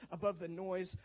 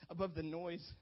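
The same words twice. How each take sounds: The two takes are said the same way.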